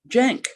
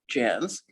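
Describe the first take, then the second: First: The name ends with a k sound. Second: The name ends with an s sound. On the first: The speaker calls it wrong. "it was mostly mispronounced Jank" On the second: The speaker calls it right. "it was supposed to be pronounced Jans"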